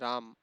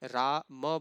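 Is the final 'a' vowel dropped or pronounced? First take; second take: dropped; pronounced. First: The final 'a' vowel is dropped. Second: The final 'a' vowel is fully pronounced. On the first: The speaker calls it wrong. "केवल क्या बोलते हैं" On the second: The speaker calls it right. "रा म बोलना होता है"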